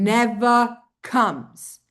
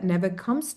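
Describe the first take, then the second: First: "never comes" drawn out slowly, each word weighted; stronger emphasis. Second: Said in the usual way. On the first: Shown as a demonstration. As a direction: put heavy, slow stress on "never comes". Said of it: "place a stronger emphasis on".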